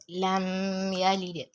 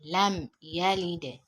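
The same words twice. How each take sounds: First: The m is held with a nasal hum. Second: The m is crisp with no nasal hum. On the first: The speaker calls it wrong. "not lam yalid" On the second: The speaker calls it right. "Pronounce it clearly"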